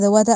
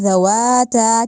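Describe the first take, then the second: First: The long vowels are cut short. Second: The long vowels are held long. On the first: The speaker calls it wrong. "ज़वाता अफनन कहना बहुत गलत है। यहाँ पे तो अलिफ मद्दा को पढ़ा ही नहीं" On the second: The speaker calls it right. "ज़वाता कहना है, यानी अलिफ को पढ़ना है"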